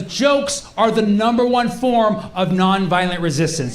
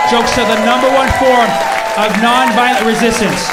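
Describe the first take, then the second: First: Said in the usual way. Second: Loud, punchy declaration; emphatic proclamation. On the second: Real, not acted. Comedian repeating his claim about jokes, loud proclamation. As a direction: hammer it home to the crowd.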